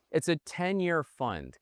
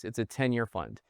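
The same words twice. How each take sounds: First: Slow, higher, pressing on every word; slow deliberate emphasis on "ten-year fund"; emphatic. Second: Said in the usual way. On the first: Real, not acted. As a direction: lean hard on the point so it lands. Repeats key point for emphasis.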